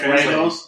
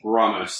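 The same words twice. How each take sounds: First: The name is said with a rolled Spanish R. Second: The name is said with an English-style R. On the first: It is the name's real pronunciation. "he got a real R" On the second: It is adapted for English speakers. "I pronounce it so you guys would understand"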